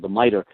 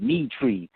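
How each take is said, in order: First: The word is said with its usual pronunciation. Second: The word is said as 'me tree'.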